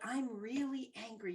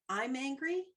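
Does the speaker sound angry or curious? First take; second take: curious; angry. First: It sounds curious and self-observing. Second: It sounds like an angry outburst.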